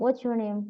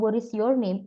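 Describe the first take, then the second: First: It is said fast with 'is' contracted. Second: The word 'is' is said fully and clearly. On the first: "ngomongnya cepet banget" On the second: "isnya kelihatan"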